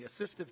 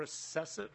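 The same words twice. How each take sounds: First: "assistive" said carefully with a clear "sist", uh-SIST-iv; deliberate fix to "assistive"; corrected word. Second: "assessive" said with an "ess" sound in the middle, uh-SESS-iv; slip of the tongue. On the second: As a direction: stumble on "assessive", saying the wrong word. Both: Real, not acted. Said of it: "uh, excuse me".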